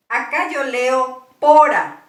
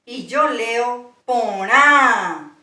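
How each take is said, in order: First: "pora" con acento llano, sin nasal. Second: "porá" lento, con acento y nasal al final. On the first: ("pora" pronunciado sin nasal) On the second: ("porá" nasalizado y acentuado) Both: Shown as a demonstration.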